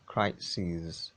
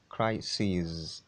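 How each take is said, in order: Both takes have the same delivery.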